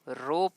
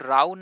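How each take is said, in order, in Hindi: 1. स्वर 'go' वाले जैसा है। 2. स्वर 'cow' वाले जैसा है। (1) "रो पढ़ा जाता है" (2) "राउ नहीं"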